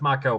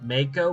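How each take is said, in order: First: The name is said with Japanese-style vowel sounds. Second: The name is said with English-style vowel sounds. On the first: The speaker calls it right. "per Japanese pronunciation rules" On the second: The speaker calls it wrong. "a lot of people pronounce it Mako"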